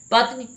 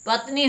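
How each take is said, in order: First: पत्नी with a short, quick final "ni"; high पत्नी with short last vowel; mispronounced पत्नी. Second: पत्नी with a long final "nee"; lengthened last vowel in पत्नी; corrected pronunciation. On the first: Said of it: "पत्नी गलत है". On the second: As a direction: say पत्नी as "pat-NEE", high. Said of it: "पत्नी होना चाहिए". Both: Shown as a demonstration.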